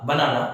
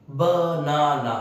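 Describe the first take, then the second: First: Said in the usual way. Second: बनाना drawn out slowly as ba-naa-naa; syllable by syllable. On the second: Shown as a demonstration. Teacher demonstrating syllables to learners, बनाना stretched syllable by syllable. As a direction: break बनाना into three long, separate syllables. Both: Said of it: "मिसाल के तौर पर मैं कहूँ".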